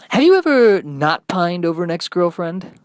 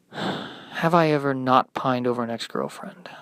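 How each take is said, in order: First: DJ question. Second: Glum echo. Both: Acted.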